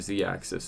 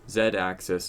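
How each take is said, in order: First: The letter is said as zee, American style. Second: The letter is said as zed, non-American style.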